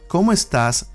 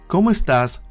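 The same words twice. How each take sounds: No difference in how they are said.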